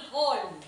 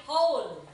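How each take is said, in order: First: "whole" with a short, pure o, like "hol"; wrong reading. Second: "whole" with a gliding o, like "howl" with an oh; correct reading. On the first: Teacher ruling out a misreading, "whole" with a flat-out pure o. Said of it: "hindi rin whole". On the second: Teacher giving pupils the right reading, "whole" with gliding oh. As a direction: say "whole" as "hohl". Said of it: "Ang tamang basa dito". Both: Shown as a demonstration.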